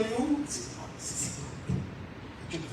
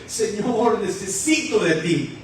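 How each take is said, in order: First: Barely audible, whispery little plea; tiny timid prayer. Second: Mock sobbing plea from the gut, lightly done; full-voiced imitation of crying out to God; acted heartfelt plea. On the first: Shown as a demonstration. Worshipper afraid others will hear, mock tiny prayer. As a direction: shrink it to a meek murmur, imitating shyness. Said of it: "pero no así, pequeñito". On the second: Believer drawing it up from the stomach, mildly sobbing plea. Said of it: "ese sollozo, y empieza a decirle".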